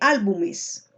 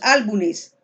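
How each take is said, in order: First: The consonant before the ending is an m. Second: The consonant before the ending is an n. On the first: The speaker calls it right. "en vez de álbumes" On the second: The speaker calls it wrong. "decimos álbumes"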